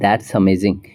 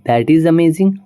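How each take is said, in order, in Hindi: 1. एक छोटा syllable: that's। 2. दो पूरे शब्द: that, फिर is।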